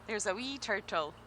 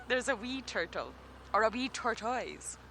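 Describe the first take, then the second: First: Scottish accent. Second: A second, cleaner Scottish take; better Scottish accent. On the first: Guide asked by viewers, in her Scottish accent. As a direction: say it with a broad Scottish wee. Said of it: "asking me to say a phrase in my fantastic accent". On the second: For the viewers who asked, a clearer Scottish accent. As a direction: give them the Scottish wee turtle properly. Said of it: "I bet you that's better". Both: Shown as a demonstration.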